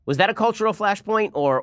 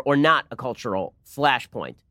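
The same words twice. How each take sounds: First: Said in the usual way. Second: Not leaned on, the phrase slowed; stress on NOT. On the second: Shown as a demonstration. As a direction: hit not and drag out the rest. Contrasting question, NOT stressed.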